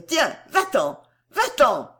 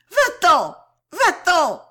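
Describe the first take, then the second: First: Higher, louder cry to drive him out; angry shout. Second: Very high, very loud screamed order; louder furious scream. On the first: Girl chasing her admirer away, angry shout. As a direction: send him away in a temper. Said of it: "elle cria". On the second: Girl striking and pushing him away, furious scream. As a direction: scream him out of the room, stamping. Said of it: "elle cria plus fort, en trépignant plus que jamais". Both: A narrator's reading.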